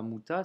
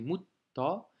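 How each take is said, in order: First: The t sound is short and single. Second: The t sound is held and doubled. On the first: The speaker calls it wrong. "c'est pas muta" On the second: The speaker calls it right. "on doit doubler la consonne"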